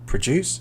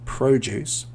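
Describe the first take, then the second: First: The stress is on the second syllable. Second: The stress is on the first syllable. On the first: It is the verb meaning to make something. "so the verb produce" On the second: It is the noun meaning fruit and vegetables. "the noun produce"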